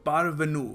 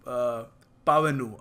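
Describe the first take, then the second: First: An R sound is heard after the first vowel. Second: No R sound is heard after the first vowel. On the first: The speaker calls it wrong. "पारवेनु नहीं sorry" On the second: The speaker calls it right. "आर silent है"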